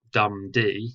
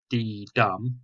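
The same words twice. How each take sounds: First: First beat hit hard, dum then a light D; trochaic stress. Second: Light D then a heavy dum, slowly; iambic stress. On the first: Teacher showing trochaic rhythm, stress on the first beat. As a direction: tap out DUM-d, strong then weak. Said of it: "remember I said for trochaic". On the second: Teacher showing iambic rhythm, stress on the second beat. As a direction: tap out d-DUM, weak then strong, slowly. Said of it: "Iambic goes". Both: Shown as a demonstration.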